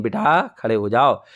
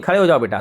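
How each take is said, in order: First: Slow, lower, tender coaxing; very loving. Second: Said in the usual way. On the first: Acted. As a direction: gently coax a scared child, unhurried. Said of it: "बहुत प्यार से बोलती हैं".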